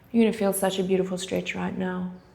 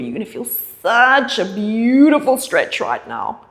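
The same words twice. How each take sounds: First: It is said flatly, without feeling. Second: It is said warmly, with feeling.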